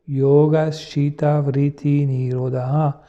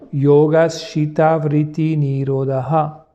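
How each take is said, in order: First: It is said two steps softer and lower. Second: It is said one step softer and lower. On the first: "on va rebaisser d'un ton" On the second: "on va baisser d'un ton"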